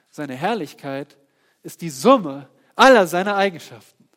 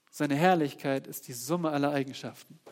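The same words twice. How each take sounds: First: Louder declaration on "aller"; loud proclamation. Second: Said in the usual way. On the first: Acted. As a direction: boom it out to the congregation. Loud preaching take.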